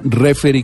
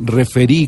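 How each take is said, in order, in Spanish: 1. El acento está en la primera sílaba. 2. El acento está en la última sílaba. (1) "tanto esdrújula, referí con tilde en la E" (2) "como aguda, referí con tilde en la última I"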